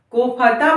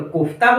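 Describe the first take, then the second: First: कोफता with फ sounded as its own syllable; full middle syllable. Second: Said in the usual way. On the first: Shown as a demonstration. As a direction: say कोफता as "ko-pha-taa". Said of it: "कोफता बोलकर देखिए". (कोफता में फ को पूरा बोलते हुए) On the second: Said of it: "कोफ्ता बोलकर देखिए".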